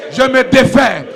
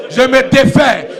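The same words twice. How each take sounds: The two takes are said the same way.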